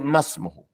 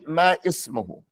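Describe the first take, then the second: First: The two words run together without a glottal stop. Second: A glottal stop separates the two words. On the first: The speaker calls it right. "You say masmuhu" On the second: The speaker calls it wrong. "you don't say ma ismuhu"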